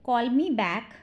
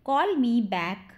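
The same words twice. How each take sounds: First: Said in the usual way. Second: Slowed-down teaching phrase; slow it for learners to repeat; slow model repeat. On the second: Shown as a demonstration. Teacher repeats the phrase for learners, slowly.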